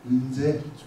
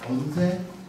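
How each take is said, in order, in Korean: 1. 첫 모음은 올라간 'eu' 소리입니다. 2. 첫 모음은 열린 'eo' 소리입니다.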